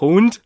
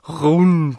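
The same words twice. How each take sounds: First: The r sounds odd, almost like an h. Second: The r is a standard German r sound. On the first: The speaker calls it wrong. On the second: The speaker calls it right.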